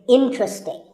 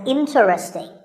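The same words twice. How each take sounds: First: The word is said with three syllables. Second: The word is said with four syllables. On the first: The speaker calls it right. "there are only three syllables, in, tra, sting, and the stress is on in" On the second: The speaker calls it wrong. "This is mispronounced sometimes as interesting"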